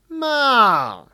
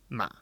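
First: The pitch falls sharply from high to low. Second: The pitch stays low and dips. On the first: "if it's high and low" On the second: "which is the third tone"

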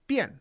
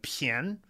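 First: It begins with b, in the fourth tone. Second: It begins with p, in the second tone. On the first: "which is normally pronounced Bian, B-I-A-N, fourth tone" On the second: "Now it's P-I-A-N, second tone"

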